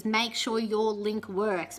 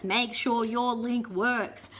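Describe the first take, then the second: First: Slow, deliberate rule; mock-solemn slow advice; slow recited advice. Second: Slow, even repeat; slow parroted rule; slow repeated advice. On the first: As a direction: spell out the rule slowly. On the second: Retold or imitated. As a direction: drill it in slowly. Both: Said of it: "Everything you read about audition videos says".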